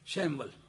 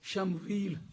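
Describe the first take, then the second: First: The name is said as shaym-val. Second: The name is said as sham-weel. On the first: This is how English speakers read the name. "शैमवल करके पढ़ते हैं अंग्रेजी वाले" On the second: This is how the name is read in Arabic and Urdu. "शमवील शमूईल करके पढ़ते हैं"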